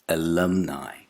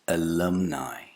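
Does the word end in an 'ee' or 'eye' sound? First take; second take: eye; eye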